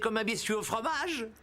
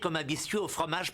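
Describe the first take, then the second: First: The voice rises at the end like a question. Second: The voice falls at the end like a statement. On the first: It sounds like a question is being asked. The speaker calls it wrong. "Comme si tu posais une question" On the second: It is a plain statement. The speaker calls it right. "point final"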